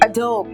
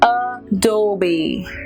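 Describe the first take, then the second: First: The word ends without a final vowel sound. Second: The word ends with a sounded final vowel. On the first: The speaker calls it wrong. "what they think is this is silent here" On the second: The speaker calls it right. "but here it's not"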